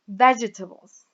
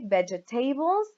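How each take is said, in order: First: The stress is on the first syllable. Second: The stress is on a later syllable. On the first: The speaker calls it right. "here we have it on the first syllable, so we say vegetables" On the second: The speaker calls it wrong. "We don't say vegetables or vegetables"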